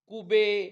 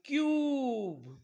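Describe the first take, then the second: First: It is two syllables, ending in an 'eh' vowel. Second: It is one syllable with a long 'yoo' vowel. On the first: The speaker calls it wrong. "व्यवस्थित शिकवलं नाही तर ते कसे वाचतील" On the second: The speaker calls it right. "त्याचा उच्चार यू करतात"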